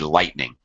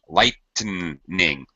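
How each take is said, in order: First: It has two syllables, with no middle vowel. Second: It has three syllables, with an extra middle vowel. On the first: The speaker calls it right. "You don't need that extra vowel sound in between" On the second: The speaker calls it wrong. "pronounce it as if it was three syllables with a short vowel sound between the T and the N"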